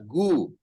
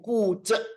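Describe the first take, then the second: First: It begins with a voiced G sound. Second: It begins with a voiceless K sound. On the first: The speaker calls it wrong. "jangan dibaca gu" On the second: The speaker calls it right. "dalam pinyin dibacanya G jadi K"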